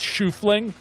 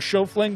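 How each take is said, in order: First: The name begins with the sound 'shoe'. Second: The name does not begin with 'shoe'. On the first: The speaker calls it right. "I suspect it's Shoofling" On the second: The speaker calls it wrong. "I keep saying Schofling"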